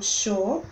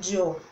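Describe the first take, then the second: First: It is said with a River Plate accent. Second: It is said with an Andean Spanish accent. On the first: "os argentinos e uruguaios diriam yo" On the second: "o espanhol andino... diriam yo"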